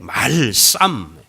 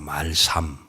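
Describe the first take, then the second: First: The last syllable is said with strong, tense force. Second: The last syllable is said plainly, without extra force.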